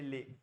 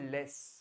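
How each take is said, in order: First: The word ends on the vowel, no consonant. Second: The word ends with a clear s sound. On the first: The speaker calls it right. "ये ले" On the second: The speaker calls it wrong. "It's no more लेस"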